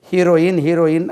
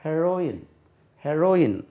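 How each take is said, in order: First: ஹீரோயின் with long "hee", like hero plus -in; common heroine mispronunciation. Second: ஹெரோயின் with a short "he", as in he-RO-in; correct heroine pronunciation. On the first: Teacher quoting how we have wrongly learnt it, mispronounced hee-ro-in. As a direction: say ஹீரோயின் as HEE-ro-in, louder on the first. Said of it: "தவறாகவே உச்சரிக்கிறோம்". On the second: Teacher answering how it is pronounced, correct short-vowel he-ro-in. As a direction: say ஹெரோயின் slipping quickly past "he" onto "ro". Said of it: "உச்சரிப்பு எப்படி?". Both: Shown as a demonstration.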